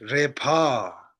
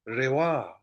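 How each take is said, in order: First: The second syllable starts with a p sound. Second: The second syllable starts with a w sound. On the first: The speaker calls it wrong. "one of us read re pa. Right? But it's this is not pa" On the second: The speaker calls it right. "we read them as a wa"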